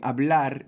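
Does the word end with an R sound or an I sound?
R sound. It ends with a standard R sound.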